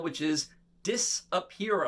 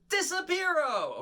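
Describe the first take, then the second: First: Said in the usual way. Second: Disappearo sung out high and drawn out; high, slow showman's Disappearo; magic word shout. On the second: Shown as a demonstration. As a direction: call Disappearo high for the kids to copy. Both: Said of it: "everybody say Disappearo".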